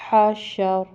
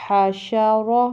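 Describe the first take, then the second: First: حشر stopped on a vowelless r; pausal reading. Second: حاشا را with a thick rounded "ro" ending; full, heavy ending on حاشا را. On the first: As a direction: drop the last vowel of حشر, closing on r. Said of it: "آگے وقف". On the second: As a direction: fill out the را of حاشا را, vowel sounded. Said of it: "را پہ زبر ہے تو موٹا پڑھیں گے". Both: Shown as a demonstration.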